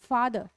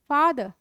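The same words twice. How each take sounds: First: The final r sound is pronounced. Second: The final r sound is silent. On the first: The speaker calls it wrong. "ये फादर नहीं है" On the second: The speaker calls it right. "ये है फादर"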